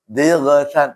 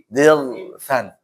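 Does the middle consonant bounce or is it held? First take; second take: bounces; held. First: The middle consonant bounces with an echo. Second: The middle consonant is held without bouncing. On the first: The speaker calls it wrong. "jangan sampai mantul ya. Dighfan, salah" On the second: The speaker calls it right. "Tahan ya"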